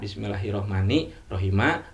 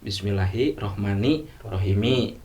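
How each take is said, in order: First: The first ends in i, the second in a. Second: Both final words end in an i vowel. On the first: "awal kasrah uh, ujung patah" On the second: "bisa kasrah dua-duanya"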